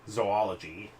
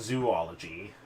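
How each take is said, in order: First: The first syllable does not sound like 'zoo'. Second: The first syllable sounds like 'zoo'. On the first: The speaker calls it right. "Zoology, not zoo" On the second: The speaker calls it wrong. "not zoo, not zoology. Oh, have I been saying it wrong my whole life?"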